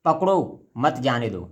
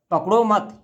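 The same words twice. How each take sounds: First: पकड़ो set apart by a pause, then मत जाने दो run together; slow, break after पकड़ो, keep मत with जाने दो. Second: पकड़ो मत run together, higher, then a break; pause after मत. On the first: Teacher shows students a comma after पकड़ो, pausing after पकड़ो. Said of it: "हमने कॉमा का प्रयोग पकड़ो के पास कर दिया". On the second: Teacher moves the comma for students, pausing after पकड़ो मत. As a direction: punch पकड़ो high, join मत to it and stop. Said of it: "इसी कॉमा को अगर हम यहाँ लगा दें". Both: Shown as a demonstration.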